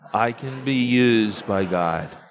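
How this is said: It is said firmly, with strong conviction. "a little more like you really believe it"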